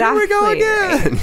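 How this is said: It is said in a thrilled, excited way. Something thrilling is happening again. "This is like on a roller coaster"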